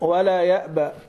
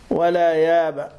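First: The glottal stop is clearly pronounced. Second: The glottal stop is dropped and the vowel lengthened.

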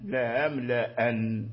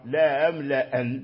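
First: Only the first glottal stop is softened. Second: The same.

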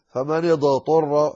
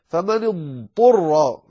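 First: The ḍād is bounced with an echoing release. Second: The ḍād is drawn out smoothly before the ṭā. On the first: The speaker calls it wrong. "ولا تقلقلها فتقول فمن اضطر، هذا خطأ" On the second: The speaker calls it right. "عليك أن تظهر الضاد والطاء"

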